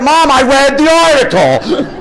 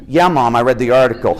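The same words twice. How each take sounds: First: High, loud, slow exasperated whine. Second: Said in the usual way. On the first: Retold or imitated. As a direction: drag it out, fed up. Exasperated son third time.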